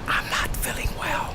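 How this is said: It is spoken in a whisper. "Whisper with me"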